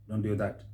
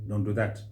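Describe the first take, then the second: The two takes are said the same way.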